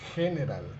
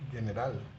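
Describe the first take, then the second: First: It starts with a throaty h sound. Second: It starts with a hard g sound. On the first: The speaker calls it right. "pero esto es general" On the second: The speaker calls it wrong. "no general"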